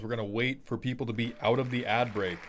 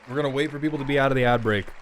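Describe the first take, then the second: First: Said in the usual way. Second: Rattled off fast, louder; fast repeat. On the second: Shown as a demonstration. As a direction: hurry through it, a bit louder. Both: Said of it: "repeated faster".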